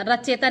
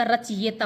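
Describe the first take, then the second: First: रचयिता with "che" in place of "chayi"; wrong pronunciation. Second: रचयिता with a clear "chi-ye" glide; correct pronunciation. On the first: Teacher showing students the error, रचयिता mispronounced as "racheta". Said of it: "रचयिता नहीं होता". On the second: Teacher giving students the correct word, रचयिता slowly as "rachiyeta". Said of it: "रचयिता होता है". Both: Shown as a demonstration.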